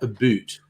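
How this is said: The vowel sounds like the one in boot. This is the cliche of how Canadians say it. The speaker calls it wrong. "not a boot"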